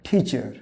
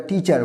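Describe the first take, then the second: First: "টিচার" with aspirated t and weak ending; native-style pronunciation. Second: "টিচার" with plain t and full -ar; non-native pronunciation. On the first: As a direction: say "টিচার" as thi-chə, English style. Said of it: "native English স্পিকাররা বলে". ("টিচার" native ধাঁচে, ঠিচা) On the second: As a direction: say "টিচার" as ti-char, Bengali style. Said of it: "এটাকে তারা টিচার বলে না". ("টিচার" বাংলা ধাঁচে, টি-চার) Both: Shown as a demonstration.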